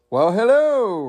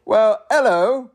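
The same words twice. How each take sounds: First: High, swooping snooty British greeting; snooty British accent. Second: Slow, high, loud British hello, lifting at the end; snooty British accent retry. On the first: Raccoon greeting the mailman, snooty British accent. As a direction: put on a hammed-up British hello, falling at the end. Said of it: "in a snooty British accent". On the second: Narrator retrying the raccoon's greeting, hammed-up British accent. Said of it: "Should I try that again". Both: Acted.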